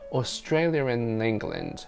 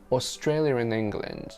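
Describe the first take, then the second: First: An R sound links 'Australia' to 'and'. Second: The same.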